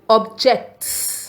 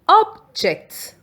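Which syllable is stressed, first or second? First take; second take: second; first. First: The stress is on the second syllable. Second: The stress is on the first syllable. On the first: It means to complain. "When the stress is on J E C T" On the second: It means a thing. "When the stress is on O B"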